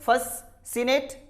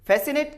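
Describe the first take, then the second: First: An extra s sound is heard in the middle. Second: A single s sound is heard in the middle. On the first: The speaker calls it wrong. "कभी ये तो नहीं कहते फससिनेट" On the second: The speaker calls it right.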